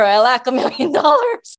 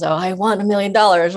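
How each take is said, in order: First: "lack" said higher and louder, pointed; stress on lack. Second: Said in the usual way. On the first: Shown as a demonstration. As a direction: hit the word "lack" as the hidden meaning. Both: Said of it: "you're saying over and over".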